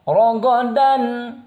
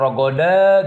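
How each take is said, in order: First: The final n is clearly pronounced. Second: The final n is dropped. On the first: The speaker calls it right. "dibacanya rogodan, dan tanwinnya terdengar" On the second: The speaker calls it wrong. "atau rogoda gitu"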